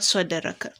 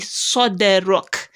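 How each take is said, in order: First: The word ends with a final vowel. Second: The word ends on a bare consonant. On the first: The reciter carries on without stopping. The speaker calls it wrong. "and not soderaka" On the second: The reciter stops at the end of the verse. The speaker calls it right. "because we are stopping there"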